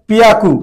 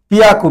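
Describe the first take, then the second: The two takes are said the same way.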